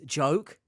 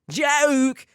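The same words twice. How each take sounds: First: Said in the usual way. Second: "joke" belted high and loud in mimicry; exaggerated, high-pitched mock "joke"; mimicked odd pronunciation. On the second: Mocking how a scammer pronounces the word, "joke" cried high and loud. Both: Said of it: "the way he pronounces".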